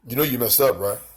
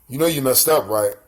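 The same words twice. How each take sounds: First: It is said in a put-on tough voice. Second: The same.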